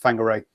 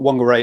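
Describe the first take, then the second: First: The name begins with an F sound. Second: The name begins with a W sound. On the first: The speaker calls it right. "the Maori pronunciation is F, not W" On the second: The speaker calls it wrong. "So it's not Whangarei"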